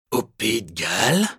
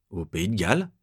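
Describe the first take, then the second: First: Calmer, dangerous. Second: Said in the usual way. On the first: A narrator's reading. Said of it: "il répète plus calme et plus dangereux".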